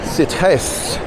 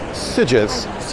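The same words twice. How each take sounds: First: The G is said the Spanish way. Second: The G is said the Catalan way. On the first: The speaker calls it wrong. "surely in Spanish that quirky little G should be a" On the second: The speaker calls it right. "I'm pronouncing it Sitges"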